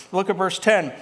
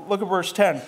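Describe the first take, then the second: No difference in how they are said.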